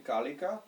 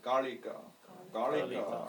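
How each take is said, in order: First: Said in the usual way. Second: Kalika with the tongue rolled a bit on the l. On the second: Shown as a demonstration. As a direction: curl the tongue slightly for the l in Kalika. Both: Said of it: "you should roll your tongue a bit".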